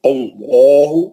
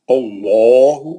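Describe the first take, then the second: First: اللہ drawn out very slowly with full heavy lam; slow heavy-lam recitation; heavy lam demo. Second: اللہ recited very slowly with a thick, full-mouthed lam; slow recited heavy lam; heavy lam demo. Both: Shown as a demonstration. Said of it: "تو کیسا پڑے گا؟".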